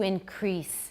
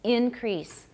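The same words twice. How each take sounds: First: The stress is on the second syllable. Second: The stress is on the first syllable. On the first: It is used as a verb. "stress on the second syllable" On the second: It is used as a noun. "stress on the first syllable"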